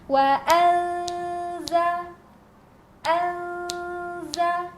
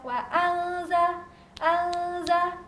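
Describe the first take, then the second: First: The nasal sound is held slowly for three counts. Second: The nasal sound is rushed and counted too quickly. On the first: The speaker calls it right. "perlahan ya menghitungnya" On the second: The speaker calls it wrong. "itu terlalu cepat"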